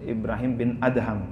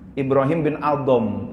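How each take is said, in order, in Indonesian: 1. Suku kata terakhir nama itu memiliki vokal a. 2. Suku kata terakhir nama itu memiliki vokal o. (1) "membedakan antara A dengan O" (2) "Ada yang membaca Ibrahim bin Adom, karena D H dianggapnya dot"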